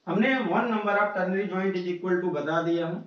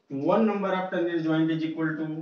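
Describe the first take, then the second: First: Said in the usual way. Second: Slow dictation. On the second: Shown as a demonstration. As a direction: dictate the rule word by word for notes. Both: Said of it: "repeats the rule slowly".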